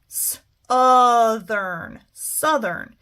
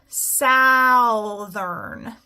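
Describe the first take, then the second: First: "southern" said with a short uh, suthern; right uh reading. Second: "southern" said with an ow, like south-ern; wrong ow reading. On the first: Teacher to class, correcting to uh in "southern". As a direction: sound out "s-, othern" slowly, then "southern" with uh. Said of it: "try it again with the uh". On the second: Teacher to class, trying the wrong ow in "southern". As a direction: try "southern" with the ow sound. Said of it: "If I try this with an ow". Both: Shown as a demonstration.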